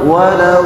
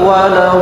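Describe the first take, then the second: The two takes are said the same way.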